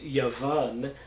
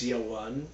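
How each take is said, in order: First: The middle consonant is a v sound. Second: The middle consonant is a w sound. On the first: This is the modern Israeli Hebrew pronunciation. "in modern uh, Israeli Hebrew" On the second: This is the speaker's own pronunciation. "in my pronunciation"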